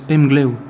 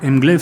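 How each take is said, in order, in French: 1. Le nom se termine par un son O ou W. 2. Le nom se termine par un son V bien net. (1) "le V à la fin des mots en breton se prononce un peu comme un O, comme un W" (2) "je crois toujours que ça se prononce Mglaive"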